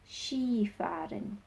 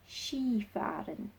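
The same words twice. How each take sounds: No difference in how they are said.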